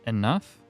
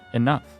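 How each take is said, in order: First: The voice rises at the end, like a question. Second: The voice falls at the end, like a statement. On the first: The speaker sounds unsure that it is true. The speaker calls it wrong. "Why do you always say it with a question mark?" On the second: The speaker is certain and means it. The speaker calls it right. "you be sure when you say it"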